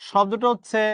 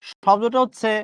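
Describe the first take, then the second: No difference in how they are said.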